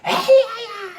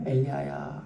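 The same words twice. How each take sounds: First: The name is called out loudly, like a rebuke. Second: The name is called in a quiet, gentle voice. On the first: It is a scolding call. "이렇게 호통치듯이 부른 게 아니에요" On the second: It is a gentle call. "세미한 소리"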